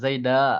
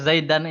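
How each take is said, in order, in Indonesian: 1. Kata ini berakhir dengan vokal a saja. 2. Kata ini berakhir dengan bunyi n. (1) "kalau seandainya kita baca wakof, ya boleh kita baca Zaida" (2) "tetap mis- eh, kayak Zaidan ini"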